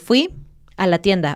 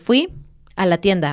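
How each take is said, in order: First: The phrase is split by a break inside. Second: The phrase is split by a break inside.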